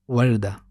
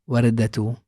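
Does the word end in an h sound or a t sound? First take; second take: h sound; t sound. First: The word ends with an h sound. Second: The word ends with a t sound. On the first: The speaker stops after this word. "so the letter is pronounced as ha" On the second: The speaker goes on without stopping after this word. "so it is pronounced as ta"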